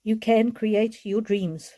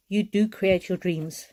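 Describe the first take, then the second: First: Slow, leaning hard on "can"; slow and deliberate, "can" weighted; stress on can. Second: Slow, with "do" weighted; gentle but firm emphasis on "do"; stress on do. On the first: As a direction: press the word "can" as a promise. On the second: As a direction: insist on "do" as a certainty. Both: Shown as a demonstration.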